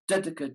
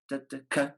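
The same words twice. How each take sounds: First: The accent falls on the first syllable. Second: The accent falls on the third syllable. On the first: The speaker calls it wrong. "they accent the first note, and it all goes wrong" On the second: The speaker calls it right. "the third syllable to accent loud"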